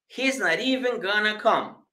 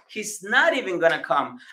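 First: The t of not links into even. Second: The t of not and even are separate.

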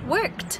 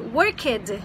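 First: The ending sounds smooth and short. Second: The ending sounds heavier and less smooth. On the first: The speaker calls it right. "Fica muito mais suave pronunciar worked" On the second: The speaker calls it wrong. "do que worked"

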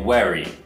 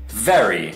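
First: It begins with a w-like sound without lip biting. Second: It begins with a buzzing v, teeth on lip. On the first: The speaker calls it wrong. "a lot of Chinese people will say very" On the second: The speaker calls it right. "你要咬咬到你的下唇 V"

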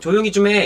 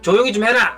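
First: It is said in standard Seoul-style Korean. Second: It is said in a Gyeongsang dialect manner. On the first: "우리는 보통" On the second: "이거는 약간 경상도 사람들이고"

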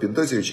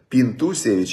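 First: The vowel after 'Pint' is an 'o' sound. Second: The vowel after 'Pint' is an 'oo' sound. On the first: "В Израиле называют Пинтосевич" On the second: "у меня фамилия Пинтусевич"

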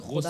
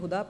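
First: The word begins with a rough kh sound. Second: The word begins with a plain h sound. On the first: The speaker calls it right. "जबकि खुदा है" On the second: The speaker calls it wrong. "उसने हुदा पढ़ा है"

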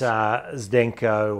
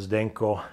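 First: The name is said with an English pronunciation. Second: The name is said with a Croatian pronunciation. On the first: "it depends if it's Croatian or English" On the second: "Zdenko in Croatian"

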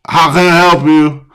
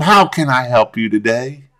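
First: It sounds casual and unprofessional. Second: It sounds friendly, smiling and professional.

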